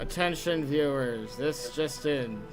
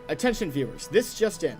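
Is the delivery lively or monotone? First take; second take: monotone; lively. First: It is said in a flat, dull monotone. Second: It is said with lively, varied pitch.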